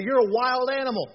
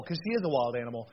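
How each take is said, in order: First: Louder, higher playful call; playful shout at his daughter; playful loud tease. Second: Said in the usual way. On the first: Retold or imitated. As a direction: tease her loudly, full of fun. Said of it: "We used to tell Kate". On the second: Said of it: "I mean".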